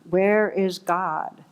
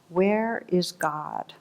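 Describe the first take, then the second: First: It is said sterner and somewhat louder. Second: It is said sternly at a moderate volume.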